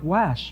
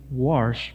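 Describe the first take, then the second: First: "wash" tried with no R, as plain "wosh"; "wash" with the R dropped, as Nevadans say it; attempted Nevada wash. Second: "wash" said as "warsh", with an R before the sh; "wash" pronounced "warsh", Missouri style. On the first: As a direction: try "wash" the Nevada way, no R at all. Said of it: "they say something like". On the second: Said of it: "that's how I say it". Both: Shown as a demonstration.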